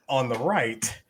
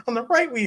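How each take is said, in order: First: Said in the usual way. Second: High-pitched giggly announcement; laughing high announce. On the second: Shown as a demonstration. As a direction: break into laughter while announcing. Repeated, laughing and much higher.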